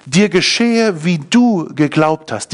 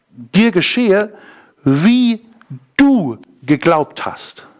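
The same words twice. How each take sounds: First: "geschehe" carries the main weight, at normal pace; stress on geschehe. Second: Slow, with weight on "dir" and "du"; stress on dir and du. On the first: (Betonung auf „geschehe“, normales Tempo) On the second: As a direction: lean on "dir", then hold "du". (langsam, Betonung auf „dir“ und „du“) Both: Shown as a demonstration.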